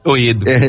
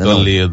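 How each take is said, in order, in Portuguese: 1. O som do L no meio é omitido. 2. O som do L no meio é pronunciado.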